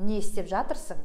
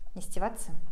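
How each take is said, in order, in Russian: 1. Каждый слог полного глагола чётко произносится. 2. Слова слиты в одно короткое слово. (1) "это я вам красиво читаю" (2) "еще более разговорная речь"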